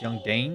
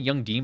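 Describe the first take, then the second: First: The name has an 'ay' vowel, like 'Dane'. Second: The name has an 'ee' vowel, like 'Dean'. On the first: "It's [name]" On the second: "I know it's not Young Dean"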